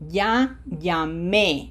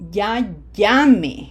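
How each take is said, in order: First: The stress falls on the last syllable. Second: The stress falls on the first syllable. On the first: The call has already been made. "it means I already called" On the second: It is an order to call right away. "Notice that the emphasis is not on the E"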